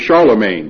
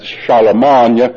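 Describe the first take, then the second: First: The name ends in an English 'main' sound. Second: The name ends in a French nasal vowel.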